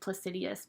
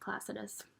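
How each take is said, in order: First: The word has four syllables, ending in -dius. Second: The word has three syllables, ending in -dus. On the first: The speaker calls it wrong. "I used to always say it Placidius, but that's not actually even how you pronounce" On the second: The speaker calls it right. "that's how you say it"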